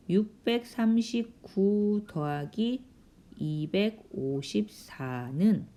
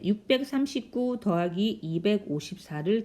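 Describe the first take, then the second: First: Slow, drawn-out reading while writing; measured pace, number by number; slow dictation. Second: Said in the usual way. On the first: Real, not acted. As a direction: stretch out each number as you write it. Reads problem while writing it vertically.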